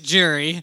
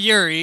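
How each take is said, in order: First: The name begins with a J sound. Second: The name begins with a Y sound. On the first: The speaker calls it right. "the Y is pronounced as a J, so it's Jiri" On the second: The speaker calls it wrong. "We've been calling him Yuri"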